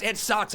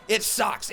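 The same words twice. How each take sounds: First: "sucks" punched, "It" light; stress on sucks. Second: "It" hit higher and louder, "sucks" falls away; stress on it. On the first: Fan venting to viewers, stressing "sucks". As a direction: land the weight on "sucks" in "It sucks". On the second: Fan venting to viewers, higher stress on "It". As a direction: lean on "It" in "It sucks". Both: Real, not acted. Complaining about the result.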